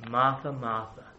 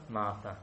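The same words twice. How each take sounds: First: Caring and compassionate. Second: Soft, low second "Martha"; gently, almost to herself; compassionate. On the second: Jesus calling Martha, soft and caring. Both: Acted. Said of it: "but care and compassion".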